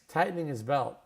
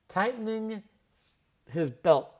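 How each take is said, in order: First: The word his is reduced to is. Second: The word his is said with its h.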